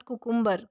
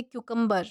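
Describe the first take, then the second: First: कुकुम्बर with a plain KOO start, no y-glide; the wrong कुकुम्बर, koo-koom-ber; कुकुम्बर said koo without the y sound; wrong pronunciation. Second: क्यूकम्बर with a KYOO start; क्यूकम्बर, y-glide after the k; correct pronunciation. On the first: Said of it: "कुकुम्बर नहीं कहा जाता इसे". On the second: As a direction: say क्यूकम्बर as kyoo-kum-ber. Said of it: "not कुकुम्बर". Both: Shown as a demonstration.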